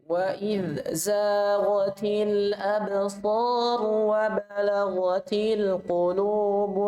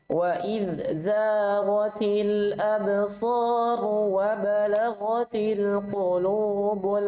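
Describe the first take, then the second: No difference in how they are said.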